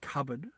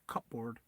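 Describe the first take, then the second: First: It is said plainly, with a silent p. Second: It is said in a Filipino accent, sounding the p.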